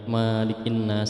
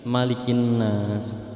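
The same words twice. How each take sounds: First: The vowel after the m is drawn out long. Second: The vowel after the m is kept short. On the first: The speaker calls it wrong. "bukan malikin nas" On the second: The speaker calls it right. "itu pendek manya"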